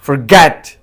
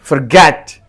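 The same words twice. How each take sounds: Both takes have the same delivery.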